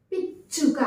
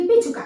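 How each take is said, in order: First: పిచ్చుక with a held stop before చు; pressed double చ. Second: పిచ్చుక said quickly as pichuka, no doubling; unpressed single చ. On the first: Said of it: "ఒత్తు ఉంది కాబట్టి మనం". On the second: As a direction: drop the pressure on చ in పిచ్చుక. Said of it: "ఒత్తి తీసేస్తే ఎలా ఉంటుంది". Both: Shown as a demonstration.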